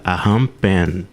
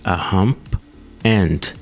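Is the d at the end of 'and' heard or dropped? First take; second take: dropped; heard. First: The d at the end of 'and' is dropped. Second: The d at the end of 'and' is heard.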